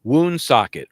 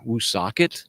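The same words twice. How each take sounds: First: "Woonsocket" with a clear N, "WOON-sock-et"; corrected pronunciation. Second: "Woonsocket" without the first N, "woo-SOCK-et"; mistaken pronunciation. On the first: Confirming the town name for listeners, "Woonsocket" as WOON-sock-et. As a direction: announce "Woonsocket" loud and higher, as Woon-socket. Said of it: "That's it, Woonsocket". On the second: Guessing a town name for listeners, "Woonsocket" as woo-SOCK-et. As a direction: ask "Woonsocket" unsurely as Woo-socket. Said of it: "that's definitely not the way it's pronounced". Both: Shown as a demonstration.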